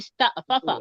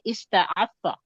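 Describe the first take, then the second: First: The two fa sounds are said separately, haltingly. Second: The two fa sounds are merged into one smoothly. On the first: "ये थोड़ा अटक के बोला जाता है" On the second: "उसको मर्ज कर देते हैं"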